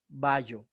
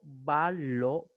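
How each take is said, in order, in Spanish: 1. La doble L suena como una Y. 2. La L se reparte en dos sílabas. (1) "jamás vallo" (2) "pronunciarlo en sílabas separadas"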